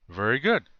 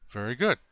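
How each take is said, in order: The two takes are said the same way.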